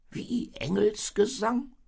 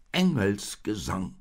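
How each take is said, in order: First: High, slow, loud baffled question; a sheep taken aback, voice shooting up. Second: Slow, loud, firm insistence; higher, emphatic, settling the matter. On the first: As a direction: ask it in high-pitched disbelief. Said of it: "fragte das Schaf verblüfft". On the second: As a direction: state it decisively as a stubborn donkey. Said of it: "sagte der Esel bestimmt". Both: A narrator's reading.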